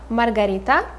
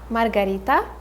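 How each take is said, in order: First: It is said with a Russian pronunciation. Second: The same.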